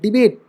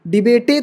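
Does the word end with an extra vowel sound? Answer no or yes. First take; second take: no; yes. First: It ends on the final t sound. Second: It ends with an extra vowel sound. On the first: The speaker calls it right. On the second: The speaker calls it wrong.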